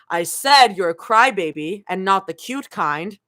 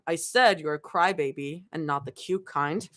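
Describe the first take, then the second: First: The line is said loudly and boldly. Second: The line is said quietly, not loud. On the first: The speaker calls it right. "I will read again" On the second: The speaker calls it wrong. "Sorry, that was supposed to be loud"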